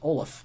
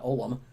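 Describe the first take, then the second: First: The name ends with an f sound. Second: The name ends with an m sound. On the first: The speaker calls it right. "it's actually pronounced Olaf" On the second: The speaker calls it wrong. "not Olam"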